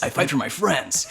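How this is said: It is said in a put-on heroic character voice.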